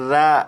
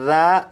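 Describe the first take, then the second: No difference in how they are said.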